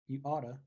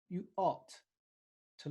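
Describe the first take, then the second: First: Ought to is reduced to oughta. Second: Ought to is said fully and carefully.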